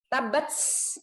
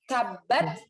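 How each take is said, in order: First: The final t has an s-like hiss. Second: The final t is a breathy English-like t. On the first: The speaker calls it wrong. "nggak boleh S murni ... Nah itu salah" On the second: The speaker calls it right. "seperti orang Inggris ... mirip dengan T-nya orang Inggris"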